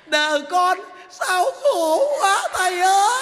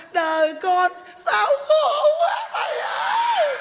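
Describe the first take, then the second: First: Hammed-up wail, higher and slow; a woman's hammed-up cry to the monk; mock wailing. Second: Much higher, slow hammed-up cry; the monk outdoes the woman's wail, mocking; shrieking mock wail. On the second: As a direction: stretch it into an over-the-top falsetto wail. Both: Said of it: "bà làm thấy ghê lắm kìa".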